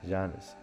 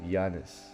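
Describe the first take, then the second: No difference in how they are said.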